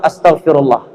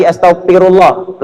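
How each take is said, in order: First: Astagfirullah with a crisp Arabic f; Arabic accent. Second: Said in the usual way. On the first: Shown as a demonstration.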